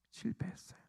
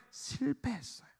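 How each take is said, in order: First: Barely audible, breath-only whisper; whispered repeat. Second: Said in the usual way. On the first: Real, not acted. Preacher echoing the disciples' failure, whispered. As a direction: let it sink to a whisper.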